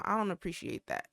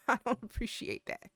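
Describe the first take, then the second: First: Said in the usual way. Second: Said through a laugh; amused mock complaint. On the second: Real, not acted. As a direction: laugh while protesting. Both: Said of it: "why are they talking regular now".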